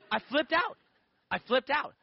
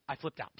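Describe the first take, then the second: First: Louder, higher, rising; flipped out. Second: Said in the usual way. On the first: Shown as a demonstration. Man telling how he panicked at the question, louder. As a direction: say it like you're losing it.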